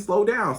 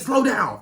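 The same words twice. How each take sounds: First: It is said gently, in a sweet voice. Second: It is said sharply, like a complaint. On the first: The speaker is affectionate and encouraging. The speaker calls it right. "you gotta be like, ooh, baby, slow down" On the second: The speaker is upset and scolding. The speaker calls it wrong. "you don't have to be like, hey, slow down"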